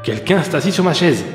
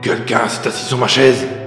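First: It is said in a medium voice. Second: It is growled in a big, gruff voice.

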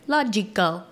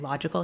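First: The syllables are over-enunciated to stand out. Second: The syllables are said plainly and normally. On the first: "he's saying like logical" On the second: "instead of just saying logical"

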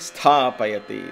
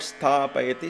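First: The word is said with strong, firm energy. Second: The word is said with weak, flat energy. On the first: The speaker calls it right. "There has to be an energy there that establishes there" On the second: The speaker calls it wrong. "Not sthapayati"

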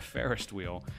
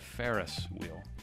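First: A T sound is added before 'wheel'. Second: No T sound comes before 'wheel'. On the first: "I call it a Ferris wheel" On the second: "not a Ferris wheel"

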